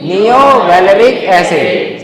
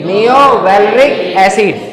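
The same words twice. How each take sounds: First: neo valeric acid drawn out slowly again; teacher drilling the acid name slowly; slow dictation. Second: neo valeric acid drawn out slowly; teacher drilling the acid name slowly; slow dictation. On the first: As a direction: repeat it slowly for the class. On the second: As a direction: say it slowly so the class can copy. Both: Shown as a demonstration. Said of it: "क्या बोलेंगे?".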